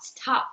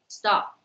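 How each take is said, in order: First: The t has a puff of air. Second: The t has no puff of air. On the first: The speaker calls it wrong. "it is very hard to say stop" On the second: The speaker calls it right. "normally people will say stop"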